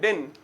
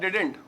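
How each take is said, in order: First: It has one syllable with no final t. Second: It has two syllables, did-ent. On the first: "डिंट का भी टी silent कर देते हैं" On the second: "असल contraction ये है डिडेंट"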